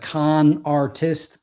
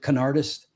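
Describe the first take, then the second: First: It is said as two separate words. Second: It is run together as one word. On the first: It is the ordinary way to say the phrase. "it was like Con Artist" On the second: It is how the group itself says the name. "but they pronounced it Canardist"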